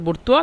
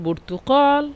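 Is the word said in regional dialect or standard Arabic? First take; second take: regional dialect; standard. First: It is said in regional dialect pronunciation. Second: It is said in standard Arabic pronunciation.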